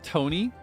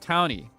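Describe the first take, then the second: First: The name is said in a French-sounding way. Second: The first syllable sounds like the word town. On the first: The name comes from a French-themed region. The speaker calls it wrong. "it's gonna sound like French" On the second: The name means a person who lives in a town. The speaker calls it right. "a person that lives in the town"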